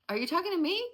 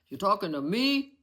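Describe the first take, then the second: First: It is said in a nice, polite voice. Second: It is said in a tough mafia-guy voice.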